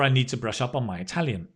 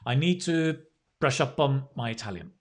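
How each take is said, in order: First: It is said all together without pauses. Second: It is said in separate chunks with pauses.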